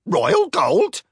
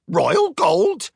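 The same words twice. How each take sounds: First: High, loud squawking parrot. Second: Even higher squawked repeat; parrot squawk. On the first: Mechanical parrot squawks the news. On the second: Parrot repeats royal gold in higher squawk. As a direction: screech it again, parrot-style. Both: Acted. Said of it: "Twitter squawked".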